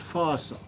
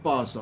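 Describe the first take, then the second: First: The name begins with an f sound. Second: The name begins with a p sound. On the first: This is how the association is usually called. "known as FASA" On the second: This annoys the association's members. "I pronounce it PASA, and then they become cross with you"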